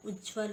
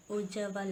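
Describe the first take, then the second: First: उज्ज्वल as "ujjval"; correct pronunciation. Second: उज्ज्वल as "ojjaval"; wrong pronunciation. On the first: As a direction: run j and v together in उज्ज्वल. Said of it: "होता है". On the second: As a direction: split the cluster in उज्ज्वल with an a. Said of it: "नहीं होता". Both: Shown as a demonstration.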